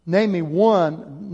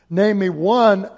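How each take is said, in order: First: Drawn-out, deliberate challenge; slow challenge. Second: Louder, punchy repeat; loud challenge. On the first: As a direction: stretch out each word as a dare. Rhetorical challenge to congregation. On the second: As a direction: fire it back at the room. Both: Acted.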